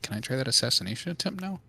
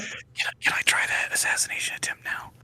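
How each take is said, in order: First: It is said in a normal voice. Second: It is said in a whisper.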